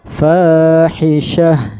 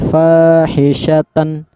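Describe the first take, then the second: First: The word ends with a soft h sound. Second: The word ends with a full -tan sound. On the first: The speaker calls it right. "kalau berhenti jadinya fahisyah... terdengar ha" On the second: The speaker calls it wrong. "Jangan dibaca karena ini tan, dibaca fahisyatan. Jangan"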